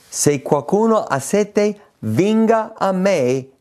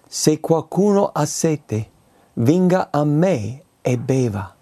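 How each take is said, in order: First: Proclamazione. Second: Invito pacato. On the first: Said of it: "E Gesù dichiara". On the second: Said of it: "leggo ancora". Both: Shown as a demonstration.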